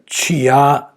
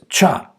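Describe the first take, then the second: First: A separate 'ee' vowel is heard before 'a'. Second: No separate vowel is heard before 'a'. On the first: The speaker calls it wrong. "You don't hear chia, chio, chiu. That's wrong" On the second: The speaker calls it right. "The sound is cha"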